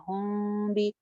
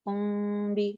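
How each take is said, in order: No difference in how they are said.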